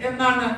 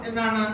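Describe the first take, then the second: Both takes have the same delivery.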